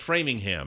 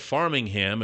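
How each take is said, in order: First: The first syllable sounds like fram. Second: The first syllable sounds like farm. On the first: The speaker calls it right. "it's Framingham" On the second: The speaker calls it wrong. "instead of Farmingham"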